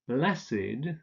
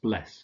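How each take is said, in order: First: The -ed ending is a separate syllable. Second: The -ed ending adds no extra syllable. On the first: It is used as an adjective. "So here we have a few exceptions" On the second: It is used as a past participle. "the past participle would be pronounced bless"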